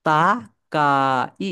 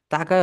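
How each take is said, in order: First: "তাকাই" drawn out very slowly, syllable by syllable; "তাকাই" in slow, separated syllables; sounded out. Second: Said in the usual way. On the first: Shown as a demonstration. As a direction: stretch each vowel of "তাকাই" for learners. Teacher sounds out new word.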